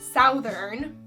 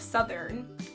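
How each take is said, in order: First: The first vowel sounds like the one in 'south'. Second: The first vowel sounds like the one in 'sun'. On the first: The speaker calls it wrong. "I tend to say southern" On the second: The speaker calls it right. "instead of southern"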